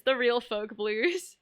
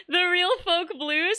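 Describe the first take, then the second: First: Said in the usual way. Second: Amused, slow. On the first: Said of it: "That's hilarious". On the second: Real, not acted. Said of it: "a really funny name".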